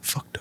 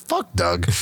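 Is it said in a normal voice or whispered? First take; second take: whispered; normal. First: It is whispered under the breath. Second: It is said in a normal voice.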